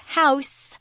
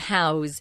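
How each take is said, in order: First: The word ends with an S sound. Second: The word ends with a Z sound. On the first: A building where someone lives. "it's a noun and you're talking about someone's house, it's an S" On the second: To give someone a place to live. "we pronounce the verb house with a Z sound"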